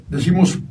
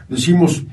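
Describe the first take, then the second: No difference in how they are said.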